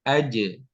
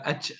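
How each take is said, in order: First: The j is released with a short bounce. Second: The j trails off with flowing breath. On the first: The speaker calls it right. "tapi aje" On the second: The speaker calls it wrong. "sehingga bukan aj"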